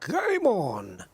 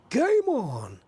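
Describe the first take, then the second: First: Darts commentator. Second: High, excited darts commentator shout. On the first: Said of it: "I sounded like that darts, the darts commentator". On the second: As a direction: belt it out like the darts announcer. Repeats darts commentator catchphrase. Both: Retold or imitated.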